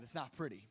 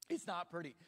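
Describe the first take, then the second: First: Mock sad. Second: Said in the usual way. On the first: Shown as a demonstration. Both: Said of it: "You should also see me sad".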